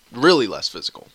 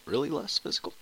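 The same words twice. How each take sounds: First: Said in the usual way. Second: "Really less physical?" softer, as a questioning echo; doubting echo. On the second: Real, not acted. Vlogger questioning his own claim, soft doubtful echo.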